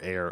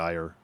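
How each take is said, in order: First: The name sounds like the word 'air'. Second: The name sounds like the word 'ire'. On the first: The speaker calls it right. "it's most likely Air" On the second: The speaker calls it wrong. "I always pronounce it Ayer"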